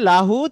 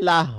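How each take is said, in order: First: The word ends with a full final vowel. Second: The word ends cut off, without the vowel. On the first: The reciter continues without stopping. "আছে লাহু" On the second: The reciter stops on this word. "থেমে গেলে লাহ হবে"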